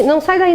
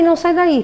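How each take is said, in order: First: Urgent no. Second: Urgent no again. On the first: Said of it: "telling the slide to go back". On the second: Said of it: "repeats the command". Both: Real, not acted.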